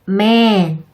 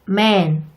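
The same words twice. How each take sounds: First: The vowel is long and wide open. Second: The vowel is short and narrow. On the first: The speaker calls it right. "제가 입을 옆으로 길게 벌리고 소리도 약간 길어지게 발음했어요" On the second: The speaker calls it wrong. "한국어의 애와 비슷하게 발음됐어요"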